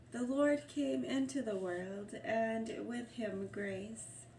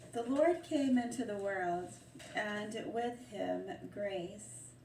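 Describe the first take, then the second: Both takes have the same delivery.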